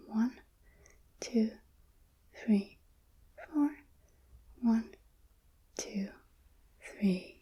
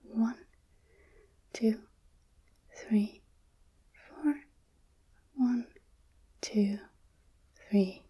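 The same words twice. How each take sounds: The two takes are said the same way.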